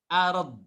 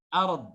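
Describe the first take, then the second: Both takes have the same delivery.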